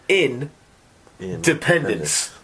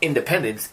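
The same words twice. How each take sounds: First: It is split into two words, in and dependence. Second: It is said as one smooth word. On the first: "It's two separate words" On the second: "it's not independence"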